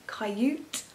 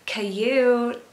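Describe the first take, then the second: First: Coyote said as kai-oot, hesitant question; unsure own try. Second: Put-on Coyote in an American accent, ky-OH-tee, a bit louder; imitated American Coyote. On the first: Shown as a demonstration. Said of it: "What can I say?". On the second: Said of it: "she does it in, like, an American accent".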